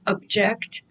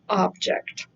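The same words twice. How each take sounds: First: The stress is on the second syllable. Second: The stress is on the first syllable. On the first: It means to disagree. "So it is a disagreement, is object" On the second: It means a thing. "as opposed to object. Object is a thing"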